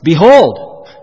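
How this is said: It is said with lively, excited energy. The speaker calls it right. "This is exciting"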